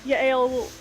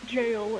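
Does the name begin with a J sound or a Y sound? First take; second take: Y sound; J sound. First: The name begins with a Y sound. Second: The name begins with a J sound.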